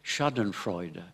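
It is said with a slight English accent. This is how English speakers say it. "avec un peu l'accent anglais"

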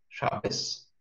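The word ends with an s sound. "ашкеназские евреи привыкли в этом слове ... читать ее как «с»"

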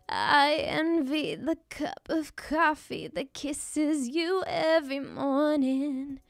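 The voice is creaky and broken up.

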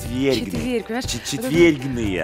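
The word is said softly and tenderly.

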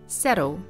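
The t is a soft flap, American style. "In American English, this is pronounced with a soft flap T"

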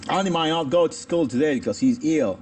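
It has an Australian accent; 'may' sounds like 'might'. "Los australianos pronunciarían esto como un might"

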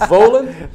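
The name is said with a German accent. "notice my German accent"

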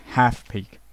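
It is said in an American accent.

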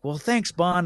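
It is said in a bright, upbeat tone. The speaker seems untroubled by what happened. The speaker calls it wrong. "it's the tone of like"

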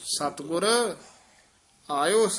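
There is a pause after the first word. The speaker calls it right. "ਸਤਿਗੁਰ ਪਦ ਤੇ ਵਿਸਰਾਮ ਲਾਉਣਾ ਹੈ"

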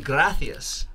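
The middle consonant is a lisped th sound. "in Spain they have certain lisps in their accent"

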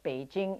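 The name is said with Mandarin pronunciation. "but Beijing in Mandarin"

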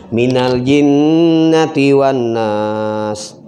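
It is followed by a short silent pause. The speaker calls it right. "Pelan-pelan, bernapas dulu"

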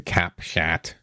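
The name is said with an American pronunciation.

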